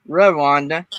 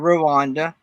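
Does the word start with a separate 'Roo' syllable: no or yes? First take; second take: no; yes. First: It starts with a single blended 'Rw' sound. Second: It starts with a separate 'Roo' syllable. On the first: The speaker calls it right. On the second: The speaker calls it wrong.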